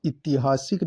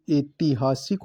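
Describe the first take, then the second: First: ऐतिहासिक opening on short i; wrong form. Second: ऐतिहासिक opening on e; correct form. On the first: Teacher rejecting the wrong form: ऐतिहासिक as "itihasik". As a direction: say "i-ti-haa-sik" for ऐतिहासिक. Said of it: "नहीं". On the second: Teacher giving the right form: ऐतिहासिक with opening e. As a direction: say "e-ti-haa-sik" for ऐतिहासिक. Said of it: "ए आएगा". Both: Shown as a demonstration.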